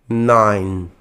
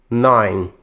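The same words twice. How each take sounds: Both takes have the same delivery.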